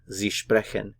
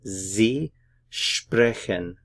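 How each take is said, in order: First: Said in the usual way. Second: "Sie sprechen" very slowly, word by word, Sie as zee; drawn-out "Sie sprechen" for learners, buzzing the S of Sie; slow pronunciation demo. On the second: Shown as a demonstration. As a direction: separate "Sie" and "sprechen" with a clear pause. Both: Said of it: "notice the pronunciation here".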